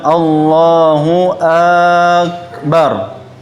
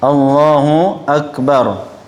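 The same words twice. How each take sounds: First: The first vowel of akbar is drawn out long. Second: The first vowel of akbar is kept short. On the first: The meaning is changed. The speaker calls it wrong. "tidak boleh kita mengatakan" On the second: God is the Greatest. The speaker calls it right. "hamzahnya pendek, ba-nya juga pendek"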